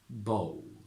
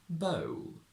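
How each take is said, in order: First: The vowel starts with a rounded O before L. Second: The vowel starts with a neutral schwa before L. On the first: "From traditional to modern" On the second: "From traditional to modern"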